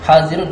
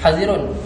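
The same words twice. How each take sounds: First: The vowel after the first consonant is long. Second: The vowel after the first consonant is short. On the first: It names one who is equipped and ready for battle. "isbah alif selepas ha" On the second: It names one who is always alert and ready. "hazaf alif"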